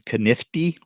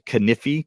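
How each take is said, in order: First: A t sound comes before the final syllable. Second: No t sound comes before the final syllable. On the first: The speaker calls it wrong. "not Thrifty Knifty, which I hear a lot of people pr- mispronounce" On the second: The speaker calls it right. "Kniffy, two F's"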